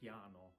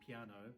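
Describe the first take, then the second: First: It is pronounced with Italian vowels. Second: It is pronounced with English vowels. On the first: The speaker calls it right. "we say piano" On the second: The speaker calls it wrong. "we don't say piano, play the piano"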